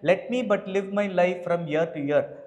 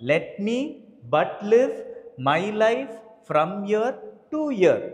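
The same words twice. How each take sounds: First: The syllables are read with flat, even stress. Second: Every second syllable carries a strong beat. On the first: The speaker calls it wrong. "அப்படின்னு படிக்காம" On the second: The speaker calls it right. "accented on every second syllable"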